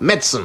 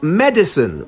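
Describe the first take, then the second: First: The vowel after the d is dropped. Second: The vowel after the d is clearly pronounced. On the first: The speaker calls it wrong. "swallow the first I as if it's not even there" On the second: The speaker calls it right. "That's right"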